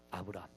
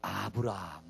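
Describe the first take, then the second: First: Very soft echo of the name; hushed echo. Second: Much lower, much softer name; low answer. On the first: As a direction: breathe the name almost silently. (거의 속삭이듯 조용하게) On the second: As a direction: drop the name softly to the crowd. (아주 낮고 조용하게) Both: Shown as a demonstration. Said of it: "누가 나올까요?".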